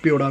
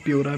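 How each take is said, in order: First: प्योड़ा with a retroflex flap ड़; pronunciation. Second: प्योरा with a tapped r in the middle; pronunciation. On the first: Vlogger giving viewers the other name, प्योड़ा with retroflex flap. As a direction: say प्योड़ा, tongue curled back for the ड़. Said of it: "प्योड़ा भी बोलते हैं इसको कुछ लोग". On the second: Vlogger giving viewers one version of the name, प्योरा with tapped r. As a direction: say प्योरा, pyo-ra, with a light r. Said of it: "प्योरा भी बोलते हैं कुछ लोग". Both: Shown as a demonstration.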